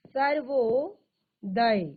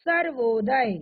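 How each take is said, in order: First: Sarvodaya drawn out very slowly; slow teacher repeat of Sarvodaya. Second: Sarvodaya said firm and loud; loud first reveal of Sarvodaya; firm announcement. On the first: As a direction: stretch every syllable of Sarvodaya. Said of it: "repeated slowly for the class". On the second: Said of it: "first reveal of the joined word". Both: Shown as a demonstration.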